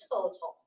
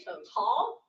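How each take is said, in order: First: Total, stressed on tal, with to short; wrong stress demo. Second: Total, stressed on to, with tal unstressed; stress on first syllable. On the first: Teacher showing the stress pattern English avoids. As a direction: lean on tal instead of to. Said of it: "and unemphasize tall". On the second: Teacher showing the English way of saying total, stressed on to. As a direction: push the to, let tal fall away. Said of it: "we tend to emphasize to". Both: Shown as a demonstration.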